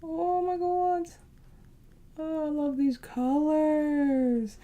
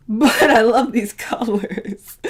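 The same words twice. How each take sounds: First: Slow, high, drawn-out delight; delighted gush. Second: Whispered through a laugh. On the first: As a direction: swoon over the colors. Admiring the palette colors. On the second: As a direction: giggle it under your breath. Laughing after a joke. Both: Real, not acted.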